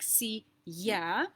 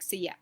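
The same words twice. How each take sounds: First: It is said slowly and distinctly. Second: It is said quickly and reduced.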